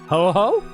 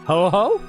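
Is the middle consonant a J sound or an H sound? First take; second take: H sound; H sound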